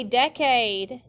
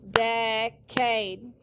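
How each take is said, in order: First: Said in the usual way. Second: "decade" split into two long beats; syllable by syllable. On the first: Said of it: "everyone say decade". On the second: Shown as a demonstration. Teacher clapping for the class, "decade" in separated syllables. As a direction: sound out "decade" one syllable at a time. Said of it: "Clap it".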